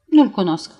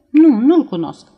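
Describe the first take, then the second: First: A firmer, flatter repeat of nu-l cunosc; insisting a second time, steadier; repeated denial. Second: A louder, insistent no; denying too firmly, a beat too late; emphatic denial. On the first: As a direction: say it again, more contained. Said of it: "repetă Elvira". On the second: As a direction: push the denial out hard. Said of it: "spuse Elvira, care așteptase un pic prea mult". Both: A narrator's reading.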